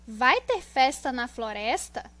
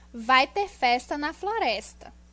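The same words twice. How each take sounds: First: It sounds like a question. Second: It sounds like a plain statement. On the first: "como se estivesse perguntando" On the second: "nós temos o ponto final"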